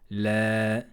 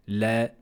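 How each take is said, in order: First: The vowel is held for two beats. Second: The vowel is held for one beat. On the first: "c'est deux temps" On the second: "c'est un temps"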